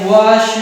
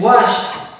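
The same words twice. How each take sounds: First: The ending is pronounced as a d sound. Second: The ending is pronounced as a t sound. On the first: The speaker calls it wrong. "we do not pronounce with a d sound like washed" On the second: The speaker calls it right. "It is washed because of this sh sound"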